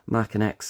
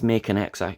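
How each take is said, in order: First: The first part sounds like 'mackin'. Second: The first part sounds like 'making'. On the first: This is the proper way to say it. The speaker calls it right. "It's Mackin" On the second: This is the common way people say it. The speaker calls it wrong. "A lot of people pronounce it as Making X"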